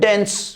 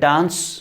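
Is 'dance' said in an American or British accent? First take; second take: American; British. First: The vowel is a flat front 'eh' sound. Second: The vowel is a broad open 'ah' sound. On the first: "American बोलेगा" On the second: "British बोलेगा"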